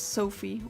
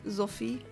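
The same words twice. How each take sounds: First: The name is said with an English pronunciation. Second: The name is said with a Luxembourgish pronunciation. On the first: "English people pronounce it as" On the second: "like it was or is pronounced in Luxembourg"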